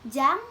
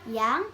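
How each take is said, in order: First: The word begins with a j sound. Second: The word begins with a y sound. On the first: The speaker calls it wrong. "Jadi tidak tidak dibaca seperti itu" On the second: The speaker calls it right. "yang sebenarnya cara bacanya itu yang"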